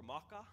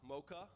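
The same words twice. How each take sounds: First: "Maka" in a lightly imitated Australian accent; lightly mimicked Australian pronunciation of "Maka". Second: Said in the usual way. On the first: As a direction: say "Maka" like an Australian mother-in-law. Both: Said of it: "as my mother-in-law would say in her Australian accent".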